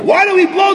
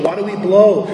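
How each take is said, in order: First: High, shouted why do we blow; preacher shouting the question high. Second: Said in the usual way. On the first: Retold or imitated. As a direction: fling the question out loud. Same question shouted in drama.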